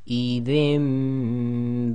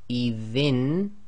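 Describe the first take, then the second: First: The final nasal becomes a nasalized m sound. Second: The final nasal is a plain n sound. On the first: The speaker calls it right. "we're changing the sound of the nun sakin to a mim sakin" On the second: The speaker calls it wrong. "instead of saying idhin"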